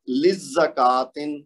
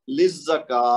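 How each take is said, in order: First: Slow "للزکاتن" with long kaa and sounded tin; full unpaused form. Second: "للزکا" with long kaa closing in h; stretch, then ha. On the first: Teacher reads the word before stopping, full tin ending. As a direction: pronounce "للزکاتن" through to a clear t-i-n. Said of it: "اب للزکاتن جب وقف کیا تو کیا بنے گا". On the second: Teacher answers what stopping makes it, long kaa plus h. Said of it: "دو حرکت کھینچ کے پھر ہا کی آواز". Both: Shown as a demonstration.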